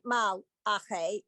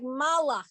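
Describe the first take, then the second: First: The syllables are separated by a clear break. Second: The syllables are run together without a break. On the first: "it doesn't sound like Mal Ache" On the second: "it sounds like Malache ... so smushed together"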